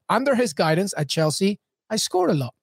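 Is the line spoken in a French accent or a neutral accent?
neutral. It is spoken in the speaker's ordinary accent.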